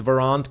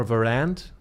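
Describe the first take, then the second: First: Said in the usual way. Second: Varant said another way, tentatively; unsure second go at saying Varant; alternative pronunciation. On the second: Shown as a demonstration. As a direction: try Varant with a different vowel, questioning. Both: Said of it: "how do they call it".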